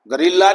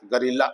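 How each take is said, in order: First: गोरिल्ला with a full O in the first syllable; गोरिल्ला opening on a clear go; the mistaken गोरिल्ला; wrong way. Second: गोरिल्ला with a schwa in the first syllable; गोरिल्ला as guh-ril-la, softer; the correct गोरिल्ला with a schwa; right way. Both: Shown as a demonstration. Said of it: "गोरिल्ला नहीं बोलना है".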